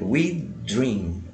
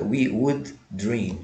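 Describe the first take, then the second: First: The contracted d merges into dream. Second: The word would is said in full. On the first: "vira um D só" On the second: "aqui a forma contrata, we would dream"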